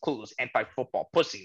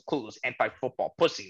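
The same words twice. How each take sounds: First: It is said in a put-on imitated voice. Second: The same.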